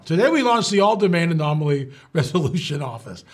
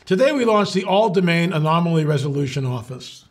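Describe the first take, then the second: First: Straight official announcement; serious official read. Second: Said in the usual way. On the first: Shown as a demonstration. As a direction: read it like a press release, deadpan. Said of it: "you've gotta be serious now". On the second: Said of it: "I'll be straight-faced".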